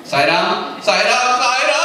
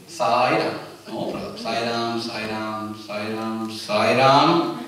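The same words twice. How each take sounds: First: Mounting alarm. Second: Chanted, low, soft monotone repetition of the holy name; chanted, murmur it evenly, untroubled, on one low note; calm chanting. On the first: Devotee falling from a hill, chant rising in mock panic. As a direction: let the holy name rise into a mock panicked cry. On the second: Devotee thrown from a hill, chanting calmly. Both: Acted. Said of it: "imagine we are thrown from the hill".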